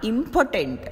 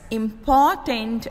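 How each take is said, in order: First: "impotent" with more force on the first syllable; "impotent" stressed as IM-po-tent. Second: "important" with more force on the second syllable; "important" stressed as im-POR-tant. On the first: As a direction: hit the opening syllable of "impotent". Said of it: "first syllable is said with more force". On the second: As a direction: lean on the middle syllable of "important". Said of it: "second syllable in important is said with more force". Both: Shown as a demonstration.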